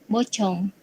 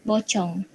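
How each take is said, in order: Both takes have the same delivery.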